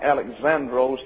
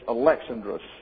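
First: The stress falls on a later syllable. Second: The stress falls on the second syllable. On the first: The speaker calls it wrong. "But it's not Alexandros" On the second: The speaker calls it right. "The accent is on the second syllable"

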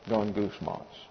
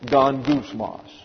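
First: The word is mumbled low, like murmuring. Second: The word is said clearly at normal volume.

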